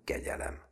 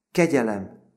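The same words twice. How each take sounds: First: Soft, fading second plea; spent, sobbed-out plea for mercy; sobbing plea. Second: High, loud cry for mercy; acted pleading outburst; sobbed plea. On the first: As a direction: beg weakly, as if sobbing. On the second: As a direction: beg as if sobbing, voice pitched up. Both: A narrator's reading.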